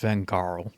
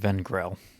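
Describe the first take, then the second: First: The name ends with a 'garl' sound. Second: The name ends with a short 'grel' sound. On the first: This is the actual name. The speaker calls it right. "but it's Vengarl" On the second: This is how the speaker used to say it. The speaker calls it wrong. "I always called him Vengrel"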